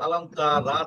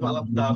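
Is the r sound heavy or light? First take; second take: light; heavy. First: The r is pronounced light and thin. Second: The r is pronounced heavy and full. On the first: The speaker calls it wrong. "রটাকে আপনি এই যে ইস্তিলা করতে পারছেন না" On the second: The speaker calls it right. "না হয়ে আলাম তা র"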